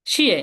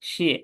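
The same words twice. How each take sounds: First: শিয়ে pushed hard and falling; falling fourth tone. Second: শিয়ে light and brief; neutral tone. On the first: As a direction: drive শিয়ে downward. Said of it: "এখানে ধাক্কা দিয়ে বলবো". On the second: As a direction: let শিয়ে trail lightly without a push. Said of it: "এখানে আমরা slightly হয়ে বলবো". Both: Shown as a demonstration.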